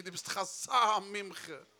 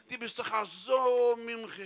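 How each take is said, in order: First: SO said slowly with moderate stretch; retold compliment. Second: SO held very long, loud and high; exaggerated compliment. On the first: Admirer praising Pinky, milder stress on SO. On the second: Admirer praising Pinky, hugely stretched SO. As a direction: blow up SO into a long loud note.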